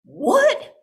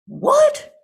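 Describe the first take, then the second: First: High, loud startled "What?"; sudden high yelp of shock. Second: Very high, loud startled "What?"; sudden squeal of shock. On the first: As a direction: jolt up in disbelief. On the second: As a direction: shriek it in disbelief. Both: Acted. Shocked outburst at the tale.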